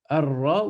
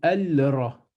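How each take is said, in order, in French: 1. Le L se fond dans un R doublé. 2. On entend un L clair avant le R. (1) "Est-ce que je dis ar, Arra" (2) "ou Al-Ra"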